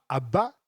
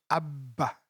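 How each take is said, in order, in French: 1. Ça sonne comme l'expression française 'à bas'. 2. Ça ne sonne pas comme 'à bas'. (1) "c'est pas Abba" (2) "c'est Abba"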